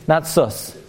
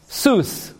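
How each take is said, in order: First: The vowel is a short 'uh' sound. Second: The vowel is a long 'oo' sound. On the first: The speaker calls it wrong. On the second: The speaker calls it right.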